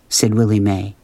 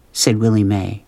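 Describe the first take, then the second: No difference in how they are said.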